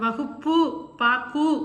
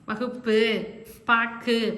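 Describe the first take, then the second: First: The final u vowel is full and clear. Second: The final u vowel is shortened and weak. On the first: The speaker calls it wrong. "அப்படின்னு நம்ம சொல்ல மாட்டோம்" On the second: The speaker calls it right. "கொஞ்சம் கம்மியாகும்"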